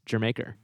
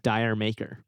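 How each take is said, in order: First: The first word sounds like 'jer'. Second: The first word sounds like 'dire'. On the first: The speaker calls it right. "that's not how it's pronounced. It's" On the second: The speaker calls it wrong. "a lot of people mispronounce"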